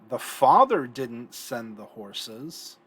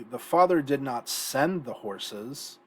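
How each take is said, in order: First: The stress falls on the word father. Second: The stress falls on the word send. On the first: Someone else sent the horses. "someone else sent the horses" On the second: He did something else with the horses. "so he did something else with them"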